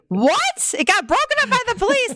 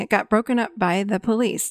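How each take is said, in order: First: It is said in a shocked, alarmed tone. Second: It is said in a calm, flat monotone. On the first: The listener is reacting with alarm. The speaker calls it wrong. "I wasn't like" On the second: The listener is simply reflecting back what was heard. The speaker calls it right. "mind you, my monotone"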